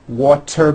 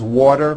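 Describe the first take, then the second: First: The middle consonant is a clear T sound. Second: The middle consonant is a soft D sound. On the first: "when a T falls between two vowels" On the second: "turns into a D"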